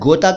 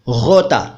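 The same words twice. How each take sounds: First: It begins with a hard stop g sound. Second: It begins with a throaty fricative gh sound. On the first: The speaker calls it wrong. "पहले वाले शब्द को आप शायद गोता कह देते हो" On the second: The speaker calls it right. "इसका सही उच्चारण है गोता। हिंदी में ग के नीचे नुक्ता लगाएंगे।"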